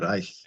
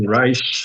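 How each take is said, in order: First: It is said with a German pronunciation. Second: It is said with an American pronunciation.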